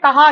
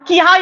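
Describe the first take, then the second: First: The first vowel is a short a. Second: The first vowel is a short i. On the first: The speaker calls it right. "आपने कहा ही पढ़ा" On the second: The speaker calls it wrong. "किहा या कुहा नहीं पढ़ा"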